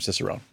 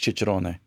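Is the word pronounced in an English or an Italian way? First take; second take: English; Italian. First: The word is pronounced with English sounds. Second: The word is pronounced with Italian sounds. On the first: This is the locally adapted form of the word. "we just sort of changed it in this country" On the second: This is the original form of the word. "you're saying it right if you're saying the word in Italian"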